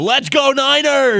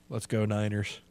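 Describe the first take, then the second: First: It is said with lively, enthusiastic energy. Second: It is said flatly, without much energy. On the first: The speaker calls it right. "There it is" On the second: The speaker calls it wrong. "That sounded so enthusiastic of you"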